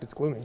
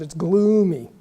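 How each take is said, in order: First: It is said flatly, as a neutral statement. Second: The first syllable is stressed and drawn out. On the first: It is simply a fact about the weather. "she did not just say a meteorological fact" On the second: I am so sick of this weather. "She emphasized the first syllable of the adjective and dragged out the word"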